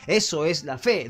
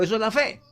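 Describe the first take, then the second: First: Said in the usual way. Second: Prompting the congregation to say it along; call to repeat. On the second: Real, not acted. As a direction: lift the ending to invite an echo. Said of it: "Diga conmigo". (invitando a repetir)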